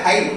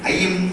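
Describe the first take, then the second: First: It starts with h and sounds nasal. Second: It starts with a pressed vowel, not nasal. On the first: The speaker calls it wrong. "ముక్కులోంచి వచ్చేదంటే హై" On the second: The speaker calls it right. "అక్కడ అయ్యి నొక్కాలి"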